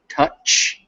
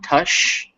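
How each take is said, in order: First: The word ends with a sharp 'ch' sound. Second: The word ends with a soft 'sh' sound. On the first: The speaker calls it right. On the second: The speaker calls it wrong. "not tush"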